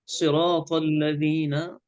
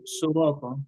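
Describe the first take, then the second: First: "صراط" begun with a clear "si" vowel; careful tajweed, first vowel of "صراط" an i; kasra on the ṣād. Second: "صراطا" begun with a "su" vowel; faulty demo, u in place of i in "صراطا"; wrong rounded ṣād. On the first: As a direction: say "صراط الذين" as siraat, lips unrounded. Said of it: "الصاد مكسورة". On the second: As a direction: round the lips to say "صراطا" as surata. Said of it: "لا نقول صراطا". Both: Shown as a demonstration.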